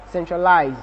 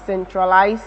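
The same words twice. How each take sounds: First: "centralize" ending in a voiced buzzing z, -lize; American ending with z. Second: "centralize" ending in a voiceless s sound, -lise; British ending with s. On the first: Teacher showing American "centralize" with a voiced z ending. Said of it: "and the Americans is voiced". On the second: Teacher showing British "centralize" with a voiceless s ending. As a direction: say "centralize" with a hissed s at the end, not z. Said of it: "the British is voiceless". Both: Shown as a demonstration.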